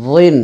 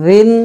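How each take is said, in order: First: রিন as heavy "dhwin"; full emphatic dh in রিন; thick heavy DH. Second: রিন as soft "dhin"; light, thin dh in রিন; soft voiced TH. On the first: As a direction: thicken the voiced th starting রিন. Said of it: "মোটা করে". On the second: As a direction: start রিন gently, th as in "this". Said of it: "নরম করে". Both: Shown as a demonstration.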